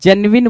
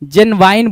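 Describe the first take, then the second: First: The last syllable is said with a short 'win'. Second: The last syllable is said with a long 'wine'. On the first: The speaker calls it right. "जेनविन बोलना चाहिए था" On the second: The speaker calls it wrong. "जेनवाइन बोल रहा है भाई"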